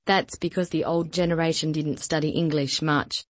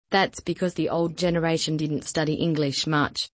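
No difference in how they are said.

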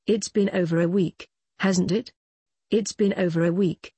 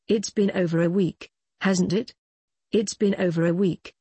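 The two takes are said the same way.

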